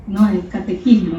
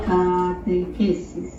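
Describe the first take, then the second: First: "catequismo" with -ismo, as the Spanish word; "catequismo" said as a correction. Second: Drawn-out "catequesis". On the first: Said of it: "es en español". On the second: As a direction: say "catequesis" slowly, ending in -esis. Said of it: "no, es catequismo, es en español". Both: Shown as a demonstration.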